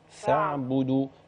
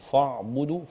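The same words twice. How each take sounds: First: The first sound is light and thin. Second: The first sound is heavy and thick. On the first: The speaker calls it right. "اخلي بالي من ترقيق الفاء شويه" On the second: The speaker calls it wrong. "لكن فاعبدوا فا لا"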